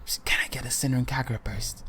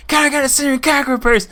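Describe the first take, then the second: First: Secretive whisper, repeated; hushed, furtive request. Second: Loud, high, fast blurted shout; high-pitched, hurried holler; shouting to be heard. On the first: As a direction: keep it under your breath, barely voiced. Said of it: "he's whispering to the guy". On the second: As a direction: yell the request for the whole store. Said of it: "Speak up, I can't hear you". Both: Retold or imitated.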